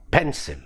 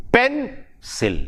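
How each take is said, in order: First: Said in the usual way. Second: "pencil" broken in two, PEN stressed, then sil; stress on first syllable. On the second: Shown as a demonstration. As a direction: hit the first syllable of "pencil", pause before the second. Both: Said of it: "first syllable".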